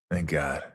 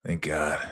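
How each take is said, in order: Both takes have the same delivery.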